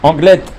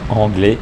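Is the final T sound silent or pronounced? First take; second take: pronounced; silent. First: The word ends with a clear T sound. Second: The word ends without a T sound. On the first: The speaker calls it right. "avec euh, les T qui sont apparents" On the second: The speaker calls it wrong. "on ne dit pas anglais"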